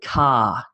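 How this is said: The final r sound is left out. "In Australia, we take car, car, car, and we sort of miss the R"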